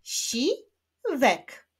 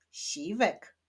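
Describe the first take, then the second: First: "Siwek" broken as si, wek, higher pitched; split into syllables. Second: Said in the usual way. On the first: Shown as a demonstration. Teacher clapping syllables of the name Siwek, split into beats. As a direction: clap out "Siwek" in two separate beats. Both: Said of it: "Wyklaszczmy sylaby w imieniu Siwek".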